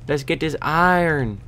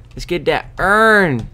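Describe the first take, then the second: First: Said in the usual way. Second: "urn" for iron, high and drawn out; cool voice. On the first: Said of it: "That was iron in". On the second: Shown as a demonstration. Player saying iron as "urn" in a cool voice. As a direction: stretch "urn" loud and high, as one syllable. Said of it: "in a cool voice. The best kind of voice".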